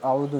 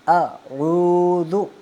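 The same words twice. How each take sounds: First: The consonants are articulated weakly and unclearly. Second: The consonants are articulated clearly and forcefully. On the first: The speaker calls it wrong. "अऊज़ु नहीं पढ़ना" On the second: The speaker calls it right. "आइन का मखरज वाज़े, हमज़ा वाज़े होना चाहिए और फिर दाल भी वाज़े होना चाहिए"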